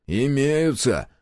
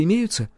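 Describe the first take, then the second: First: Slow, higher, drawn-out "Имеются"; slightly odd answer. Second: "имеются" asked at a higher pitch; questioning. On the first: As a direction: stretch "Имеются" out oddly. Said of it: "немного странно ответил он". (немного странно, протяжно «Имеются») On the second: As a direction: ask "имеются" as a lively question. Question before the odd answer. (вопросительно «имеются») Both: A narrator's reading.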